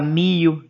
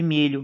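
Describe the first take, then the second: First: The 'lh' sound is replaced by an 'i' glide. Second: The word keeps its palatal 'lh' sound. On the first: This is the popular spoken form. "Se fala mio em vez de milho" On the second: This is the standard grammatical form. "em vez de milho"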